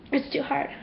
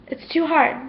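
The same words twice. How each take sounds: First: Much softer, the words almost fading away; faded near-whisper. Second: Said in the usual way. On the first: Real, not acted. Repeating to herself how hard it is, fading away. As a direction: let the repeat die out into barely a breath. Repeats line, second fades.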